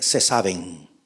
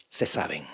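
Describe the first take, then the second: First: Said in the usual way. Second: Repite "Se saben" mucho más bajo y suave; quiet echo. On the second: Real, not acted. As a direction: eco grave y suave de "Se saben". (repite "Se saben" en voz baja)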